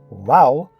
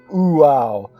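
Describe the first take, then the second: First: The word begins with a w sound. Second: The word begins with an oo vowel. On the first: The speaker calls it right. "if transliterated correctly as Wow, one achieves the correct pronunciation" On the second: The speaker calls it wrong. "actually pronounce it Uau"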